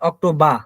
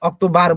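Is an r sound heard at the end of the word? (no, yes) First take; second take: no; yes. First: The word ends in an open ah vowel. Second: The word ends with a clear r sound. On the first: The speaker calls it right. "হবে হচ্ছে আপনার আহ" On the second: The speaker calls it wrong. "কিন্তু অক্টোবার হবে না"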